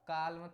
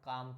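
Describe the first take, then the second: First: The L sound is pronounced in the word. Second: The L sound is left out of the word. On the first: The speaker calls it wrong. "काल में तो पढ़ेंगे नहीं" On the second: The speaker calls it right. "काम पढ़ेंगे"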